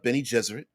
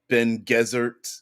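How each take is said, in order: First: The first word has two syllables. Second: The first word has one syllable. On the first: The film says the name this way. "in the movie, ... It's pronounced Benny Ge- uh, Benny Gesserit" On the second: Some people say the name this way. "some call them Ben Gesserit"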